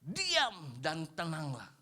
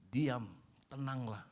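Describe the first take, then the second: First: Slow, deliberate. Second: Slow and gentle; slow, calm verse. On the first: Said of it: "quoting the verse, slowed". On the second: Pastor rereading the verse to the congregation, slow and calm. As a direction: let the calm settle in. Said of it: "verse repeated slowly, soft". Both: Shown as a demonstration.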